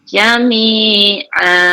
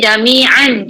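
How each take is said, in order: First: The word ends with a long 'a' sound. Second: The word ends with an 'n' sound. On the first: This is the form used when stopping. "kita baca dengan jami'a" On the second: This is the original full form. "asalnya jami'an"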